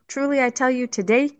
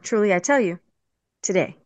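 First: There is no pause before the word today. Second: There is a pause before the word today. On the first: The telling happens today. "so is he telling you today?" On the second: Being in paradise happens today. "Or are you going to be in paradise today?"

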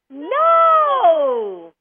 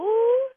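First: It is said happily. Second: It is said in a confused way.

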